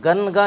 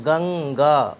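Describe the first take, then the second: First: گنگا with a plain separate n, gan-ga; گنگا mispronounced as gən-ga; wrong separated n. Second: گنگا with the nasal blended into g, gaŋ-ga; گنگا blended, gəŋga; correct ghunna. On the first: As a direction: split گنگا with a clear n. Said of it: "گنگا نہیں پڑھیں گے، غلط ہو جائے گا". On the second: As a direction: say گنگا as one word, nasal joined to g. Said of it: "تین حرفوں کو ملا کر کے پڑھیں گے گنگا". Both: Shown as a demonstration.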